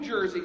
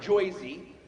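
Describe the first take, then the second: First: Said in a plain, standard accent. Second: Said in a thick local New Jersey accent. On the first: The speaker calls it wrong. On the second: The speaker calls it right.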